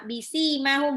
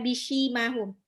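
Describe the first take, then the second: First: The s is said as a plain s. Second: The s is said as an altered s. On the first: The speaker calls it right. "sin biasa" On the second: The speaker calls it wrong.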